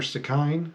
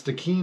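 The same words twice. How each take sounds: First: Stikine said stick-INE, rhyming with "fine"; alternative pronunciation. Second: Stikine said stick-EEN, ending like "keen"; pronunciation variant. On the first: Narrator offering the other reading, Stikine pronounced stick-INE. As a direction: say Stikine with a long i in the second syllable. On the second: Narrator unsure of a river's name, Stikine pronounced stick-EEN. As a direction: say Stikine with a long ee in the second syllable. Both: Shown as a demonstration.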